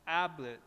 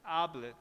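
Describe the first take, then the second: Both takes have the same delivery.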